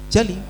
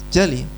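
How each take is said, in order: No difference in how they are said.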